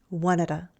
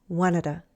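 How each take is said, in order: No difference in how they are said.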